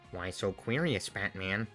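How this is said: A low, raspy, drawling villain voice. "This is the Heath Ledger"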